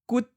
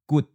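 First: It is said with the eighth tone. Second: It is said with the fourth tone. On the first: "That's eighth tone" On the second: "That's fourth tone"

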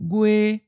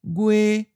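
First: The pitch stays level and high. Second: The same.

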